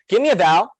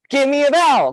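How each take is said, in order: First: It is said in a plain, ordinary voice. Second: It is said in a peppy cheerleader voice.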